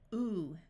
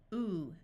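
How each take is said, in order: First: The vowel is a long ooh sound. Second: The same.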